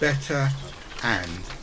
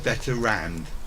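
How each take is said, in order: First: A glottal stop separates the two words. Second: An R sound links the two words. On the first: The speaker calls it right. "the other example of the same thing" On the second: The speaker calls it wrong. "as opposed to better rand"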